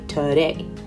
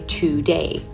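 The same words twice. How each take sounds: First: The first vowel is reduced to schwa. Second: The first vowel is a full vowel. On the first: "a lot of native speakers is actually, we're actually going to say today" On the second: "Today is correct"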